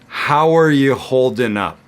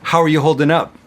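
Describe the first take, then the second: First: The sentence is said at a slow pace. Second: The sentence is said at a fast pace. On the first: "I'm going to say it slowly" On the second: "really fast"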